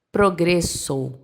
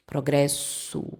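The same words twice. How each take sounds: First: "progresso" devagar, à espanhola, O final fechado em O; pronúncia espanhola. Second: "progresso" devagar e mais baixo, final em U; pronúncia portuguesa lenta. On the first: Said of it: "no espanhol, como ficaria". ("progresso" lento, em espanhol, O final sem virar U) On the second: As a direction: repita "progresso" devagar, terminando em U. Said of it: "ó o U no final, no som". ("progresso" lento e suave, final U) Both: Shown as a demonstration.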